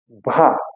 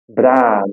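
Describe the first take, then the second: First: The R is a dragged sound in the throat. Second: The R is a quick tap of the tongue. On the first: "aquele R arrastado" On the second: "aquele R quebrado"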